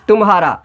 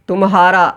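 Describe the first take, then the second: No difference in how they are said.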